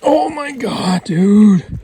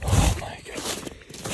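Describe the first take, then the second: First: Much higher, loud yell of amazement; real ecstatic shout; excited shout. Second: Slow, stunned whisper; hushed disbelief; awed whisper. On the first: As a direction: let it burst out at the buck. Hunter reaches the huge buck. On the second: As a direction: breathe it out in disbelief. Hunter sees the downed buck. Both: Real, not acted.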